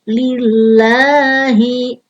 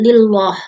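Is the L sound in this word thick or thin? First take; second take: thin; thick. First: The L in Allah is light and thin. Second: The L in Allah is heavy and thick. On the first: The speaker calls it right. "dibaca tipis" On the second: The speaker calls it wrong. "tidak lillah"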